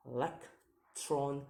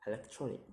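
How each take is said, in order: First: Syllable by syllable. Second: Said in the usual way. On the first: Shown as a demonstration. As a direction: sound out "electronic" one syllable at a time. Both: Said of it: "count the word syllable backwards".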